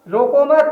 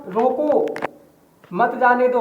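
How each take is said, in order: First: रोको मत run together as one phrase, higher; pause after मत. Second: रोको alone, a clear pause, then मत जाने दो together; pause after रोको. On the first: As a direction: join मत onto रोको with no break, stop after मत. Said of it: "लेकिन नीचे वाले का". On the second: Teacher showing the comma's place, pause after रोको. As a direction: break right after रोको, keep मत with जाने दो. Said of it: "आप केवल कामा को देखेंगे". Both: Shown as a demonstration.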